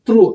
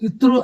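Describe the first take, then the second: First: The consonant cluster starts directly with no vowel. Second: An extra 'i' vowel comes before the consonant cluster. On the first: The speaker calls it right. "త్రు అంతే" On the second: The speaker calls it wrong. "ఇత్రు అనకూడదు, అదే అది correct కాదు"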